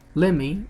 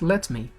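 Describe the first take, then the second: First: The words are run together into one reduced word. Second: Both words are said separately and in full.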